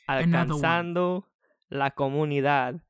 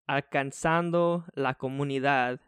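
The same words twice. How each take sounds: First: The phrase is said with strong, energetic emphasis. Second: The phrase is said plainly, without extra emphasis.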